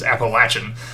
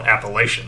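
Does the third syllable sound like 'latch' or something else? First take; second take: latch; something else. First: The third syllable sounds like 'latch'. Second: The third syllable does not sound like 'latch'. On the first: This is the form the school's people prefer. The speaker calls it right. "It's Appalachian" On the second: This is the form the school's people dislike. The speaker calls it wrong. "they don't like being called Appalachian"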